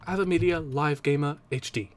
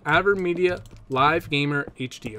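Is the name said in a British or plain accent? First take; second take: British; plain. First: The name is said in a British accent. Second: The name is said in a plain accent.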